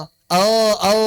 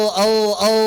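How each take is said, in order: No difference in how they are said.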